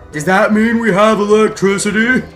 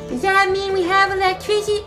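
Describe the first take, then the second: First: It is said in a plain, natural voice. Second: It is said in a put-on childlike voice.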